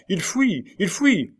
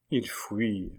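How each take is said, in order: First: High-pitched alarm call; sentry's cry. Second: Murmured. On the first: Sentinels raise the alarm on an escape, crying out. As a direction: cry the alert, pitch leaping up. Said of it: "quelques sentinelles se retournèrent en criant". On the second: Duke watches the king escape, murmuring. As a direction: say it softly to yourself. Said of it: "murmura le duc d'Alençon". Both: A narrator's reading.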